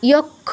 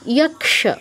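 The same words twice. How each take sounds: First: The cluster is sounded as a doubled kh. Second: The cluster is sounded as k plus sh. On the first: The speaker calls it wrong. "নয়" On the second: The speaker calls it right. "এরকম"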